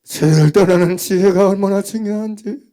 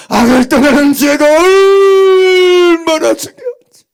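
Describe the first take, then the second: First: Said in the usual way. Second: Higher, louder, slow, voice breaking; tearful drawn-out plea; crying cry. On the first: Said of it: "repeated stronger". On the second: Real, not acted. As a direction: cry it out to the congregation. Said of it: "crying loud repeat".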